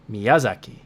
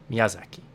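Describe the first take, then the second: First: The second syllable carries strong, loud stress. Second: All syllables are even, with little emphasis. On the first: "if you pretend to say it like it's English, ... really like put stress on the ya" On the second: "The proper Japanese way to say it is Miyazaki. ... very little emphasis on on the accent in the word"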